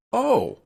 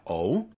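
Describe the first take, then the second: First: "Oh" leaping much higher and louder; surprised exclamation "Oh!"; exclaimed oh. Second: "oh" with a question rise; "oh" rising like a question. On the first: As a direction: exclaim "Oh!" with a big jump up. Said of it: "put an exclamation point on the end". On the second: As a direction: ask it: "oh?". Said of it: "putting a question mark on the end". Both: Shown as a demonstration.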